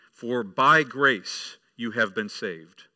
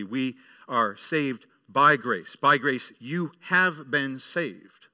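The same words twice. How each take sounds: First: Each word set apart, slow and louder; slow emphatic verse. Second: Slow, louder, ringing declaration; confident proclamation. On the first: Preacher quoting the verse to the church, slow and emphatic. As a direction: read the verse slowly, weighing every word. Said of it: "and he says". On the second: Preacher proclaiming Paul's words to the congregation, slow and confident. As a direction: proclaim it slowly, every word landing. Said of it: "And Paul says confidently". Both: Retold or imitated.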